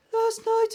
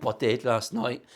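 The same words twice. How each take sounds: First: "Last night." squeaked out very high; high squeaky repeat. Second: Said in the usual way. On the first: Shown as a demonstration. Echoing himself to viewers in a comic high squeak.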